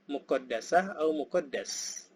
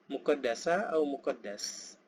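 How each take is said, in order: No difference in how they are said.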